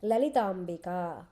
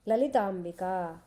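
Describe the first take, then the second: First: Lalitambika said slowly, syllable by syllable; teacher modelling Lalitambika slowly; slow model word. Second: Said in the usual way. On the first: Shown as a demonstration. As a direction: spell out Lalitambika slowly for the class to repeat. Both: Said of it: "say that, Sri Ramo".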